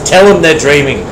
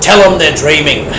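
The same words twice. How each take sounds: First: It is said in the speaker's ordinary accent. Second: It is said in a broad Australian accent.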